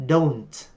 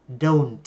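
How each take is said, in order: No difference in how they are said.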